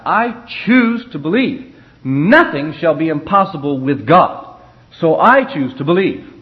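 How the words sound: It is spoken with strong feeling and conviction. The speaker calls it right. "if you're testifying and you're under the anointing, you should testify"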